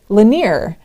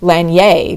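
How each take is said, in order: First: The name is said with an English-style ending. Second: The name is said with a French-style ending. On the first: The speaker calls it right. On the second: The speaker calls it wrong.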